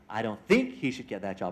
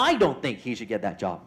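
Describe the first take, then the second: First: The stress is on think. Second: The stress is on I.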